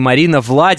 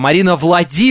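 First: The stress in Vlady is on the first syllable. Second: The stress in Vlady is on the last syllable. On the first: The speaker calls it wrong. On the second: The speaker calls it right.

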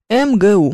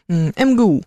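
First: Each letter is said by its name. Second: The same.

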